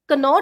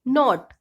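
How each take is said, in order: First: The word begins with a k sound. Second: The word begins with an n sound. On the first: The speaker calls it wrong. "कनॉट नहीं बोलेंगे" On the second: The speaker calls it right. "इसको हम सीधे बोलेंगे नॉट"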